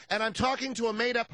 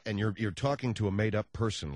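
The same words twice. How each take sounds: First: Much higher prim lady caller voice; high-pitched smug woman; Mensa lady voice. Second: Said in the usual way. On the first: Retold or imitated. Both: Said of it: "a fake voice".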